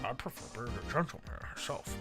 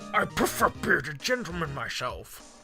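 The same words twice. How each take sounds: First: It is mumbled quietly under the breath. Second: It sounds indignant and offended. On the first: The remark is said to oneself. "like he mumbles" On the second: The remark is a reaction to being slighted. "He has to sound more offended"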